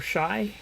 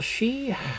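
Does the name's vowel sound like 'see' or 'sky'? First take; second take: sky; see. First: The vowel is an 'eye' sound. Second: The vowel is a long 'ee' sound. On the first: "she or shy" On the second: "she or shy"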